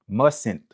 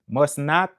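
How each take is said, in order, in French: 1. Ça se dit en un seul mot contracté. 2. Ça se dit en deux mots pleins. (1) "c'est une contraction"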